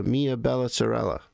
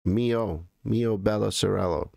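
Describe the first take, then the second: First: "Mia Bella Sorella" with every word ending in "ah"; Italian feminine endings. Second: "Mio Bella Sorello" with "oh" closing Mio and Sorello; Italian O endings. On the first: Streamer trying Italian on a viewer, "Mia Bella Sorella" with A endings. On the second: Streamer correcting his own Italian, "Mio Bella Sorello" with O endings. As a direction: say "Mio Bella Sorello", swapping final A for O on first and last words. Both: Shown as a demonstration. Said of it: "I think I have to say it like that".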